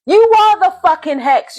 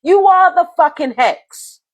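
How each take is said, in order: First: "You" hit hard and higher; stress on you. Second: "are" leaned on, slower and deliberate; slow it down and land on "are"; stress on are. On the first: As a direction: punch the word "You", angry. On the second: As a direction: drag out "are" in "You are the fucking hex". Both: Real, not acted.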